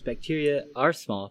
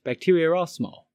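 First: Said in the usual way. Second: "bacteria are" run together as "bacteria-r-are", higher; "bacteria are small" joined up with a linking R. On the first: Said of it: "other example is". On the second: Shown as a demonstration. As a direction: slip an R between "bacteria" and "are". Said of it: "pronounced bacteria are small".

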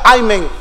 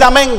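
First: "amén" turned into a groaned "ay-mén"; amen as "ay-men". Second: Said in the usual way. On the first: Shown as a demonstration. Preacher offers reluctant listeners an alternative, "amén" said as "ay-mén". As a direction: say "amén" starting with an "ay", pitch dropping. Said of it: "Si usted no puede decir amén". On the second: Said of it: "diga amén".

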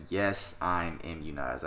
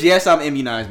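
First: Slowed, careful imitation of a denial; slow mock quote of Rodgers. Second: Louder, scornful repeat of the quote; mocking repeat. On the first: Imitating Aaron Rodgers slowly dodging the vaccine question. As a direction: say it slowly, like a dodgy official answer. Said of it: "and he said". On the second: Mocking Aaron Rodgers' vaccine claim, louder and scornful. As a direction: throw his words back at him with scorn. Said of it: "What does".

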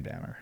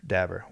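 First: "dabber" slurred so it comes out like "dammer". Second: "Dabber." said again with a clear b; corrected dabber. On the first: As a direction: mumble "dabber" with the b blurred to m. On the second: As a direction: repeat "Dabber." carefully, correcting the slur. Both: Real, not acted. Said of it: "I can't even talk".

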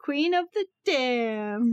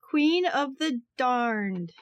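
First: Damned said clearly, no r, slower; corrected title. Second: Darned said for Damned, r sound; wrong word. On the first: Shown as a demonstration. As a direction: say Queen of the Damned, carefully corrected. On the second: Acted. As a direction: say Queen of the Darned, with an r. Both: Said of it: "No, damned".

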